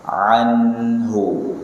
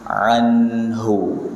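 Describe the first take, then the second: No difference in how they are said.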